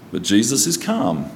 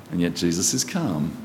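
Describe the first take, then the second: First: Said in the usual way. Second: Softer, lower, settled and calm; quiet calm. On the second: Real, not acted. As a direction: let it drop quiet and steady. Calm restated against chaos.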